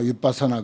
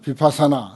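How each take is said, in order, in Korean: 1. 이 단어는 짧게 끊기는 'wit' 소리로 시작합니다. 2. 이 단어는 평범한 'bi' 소리로 시작합니다.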